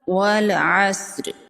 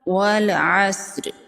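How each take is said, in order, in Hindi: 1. आखिरी स्वर का बस हल्का सा निशान। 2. आखिरी स्वर का बस हल्का सा निशान।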